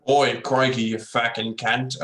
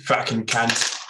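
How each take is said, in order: First: Slow broad bogan Australian accent; drawn-out ocker Australian swearing. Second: Swearing that comes out British; a failed Aussie try that sounds British; British accent. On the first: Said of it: "Can anyone do, like, a Bogan Aus-, uh, accent". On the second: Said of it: "now I just sound like a British guy". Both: Shown as a demonstration.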